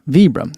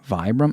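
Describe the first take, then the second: First: The first syllable is said like 'vee'. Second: The first syllable is said like 'vye'. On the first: This is how the speaker has always said it. "That's how I always said Vibram" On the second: This is how a commenter thinks it is said. "they think it's Vibram, and they were V Y"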